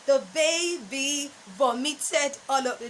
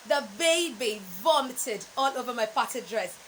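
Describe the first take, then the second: First: Vomited with a long o, voh-mi-ted; the baby vomited in an odd voice, long o in voh; wrong pronunciation. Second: Vomited with a short o, VOM-i-ted; the baby vomited, short o in VOM; correct pronunciation. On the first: Coach mocking the wrong way to say vomited. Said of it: "No, that's wrong". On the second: Coach giving students the corrected sentence. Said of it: "it's the baby vomited". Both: Shown as a demonstration.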